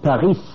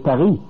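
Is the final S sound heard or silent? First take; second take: Heard; Silent. First: The final s sound is pronounced. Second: The final s sound is not pronounced. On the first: The speaker calls it wrong. "you don't say Paris" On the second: The speaker calls it right. "So the S is mute"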